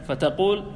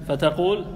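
The two takes are said the same way.

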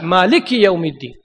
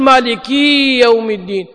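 First: The final vowel of 'maliki' is kept short. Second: The final vowel of 'maliki' is drawn out long. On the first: The speaker calls it right. "بدون إشباع" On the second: The speaker calls it wrong. "ما يصير تقول مالكي يوم الدين عشان تبي تزين صوتك"

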